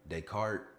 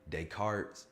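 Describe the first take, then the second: First: The S sound in the name is silent. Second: The S sound in the name is pronounced. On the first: The speaker calls it right. "you don't pronounce the S" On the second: The speaker calls it wrong. "No, not you don't you don't pronounce the S"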